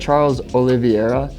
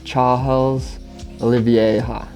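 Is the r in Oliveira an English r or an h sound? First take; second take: English r; h sound. First: The r in Oliveira sounds like an English r. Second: The r in Oliveira sounds like an h. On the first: "how come you say" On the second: "Because R's are H's in Brazilian or in Portuguese"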